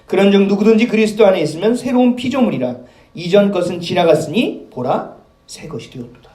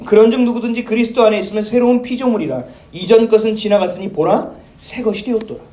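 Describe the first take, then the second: First: Slower scripture reread. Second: Steady, solemn Bible reading; scripture reading. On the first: Shown as a demonstration. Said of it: "다시 한번 제가 읽어볼게요". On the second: Acted. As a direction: read the verse with weight. (엄숙한 성경 낭독)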